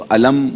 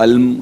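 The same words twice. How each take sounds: First: Put-on علم said the wrong way the child said it; mispronounced word. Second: علم said correctly and slowly; correct pronunciation. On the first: Judge quoting a contestant's wrong علم in a mock mistake. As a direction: imitate the child's faulty علم. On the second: Judge showing a child the correct علم after the mistake. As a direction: give the right علم slow and careful. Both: Shown as a demonstration. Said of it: "کو علم کہا".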